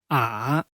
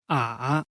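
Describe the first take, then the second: The two takes are said the same way.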